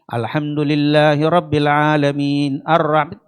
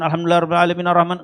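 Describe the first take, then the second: First: The words come in short, separate pieces. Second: The words run together without breaks. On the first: The speaker calls it right. "pendek-pendek tartil" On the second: The speaker calls it wrong. "Jadi bukan ... enggak"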